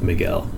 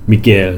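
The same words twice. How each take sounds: First: The name is said with an English pronunciation. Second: The name is said with a Spanish pronunciation. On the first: "instead of" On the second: "They do the Spanish pronunciation of names"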